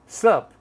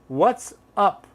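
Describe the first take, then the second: First: Only a single short syllable remains. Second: What and is merge into one syllable. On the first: "Or sup" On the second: "a lot of people say"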